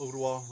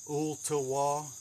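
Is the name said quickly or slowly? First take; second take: quickly; slowly. First: The name is said quickly and clipped. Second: The name is said slowly and fully. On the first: This is the casual everyday way of saying it. "Most people just say uh, Ooltewah real quick" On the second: This is the full proper way of saying it. "if you actually are pronouncing it"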